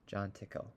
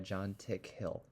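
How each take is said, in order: First: The surname is said as one word, Tickle. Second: The surname is said as two parts, Tick-hill.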